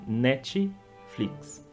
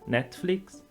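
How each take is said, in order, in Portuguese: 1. Uma vogal extra 'ee' é acrescentada depois do t. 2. O t vai direto para o f, sem vogal acrescentada. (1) "a gente acrescenta um i no meio da palavra" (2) "a pronúncia original é"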